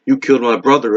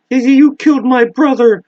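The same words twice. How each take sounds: First: Said in the usual way. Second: High, loud cry of rage; furious shout. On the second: Acted. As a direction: scream it at your brother's killer. Bill confronts the spider.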